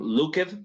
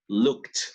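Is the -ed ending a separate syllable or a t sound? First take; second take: separate syllable; t sound. First: The -ed ending is a separate syllable. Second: The -ed ending is a t sound. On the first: The speaker calls it wrong. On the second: The speaker calls it right. "la E no suena"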